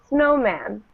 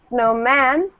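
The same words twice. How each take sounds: First: The stress is on the first syllable. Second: The stress is on the second syllable. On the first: The speaker calls it right. "The beginning again. I say snowman" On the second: The speaker calls it wrong. "I don't say snowman"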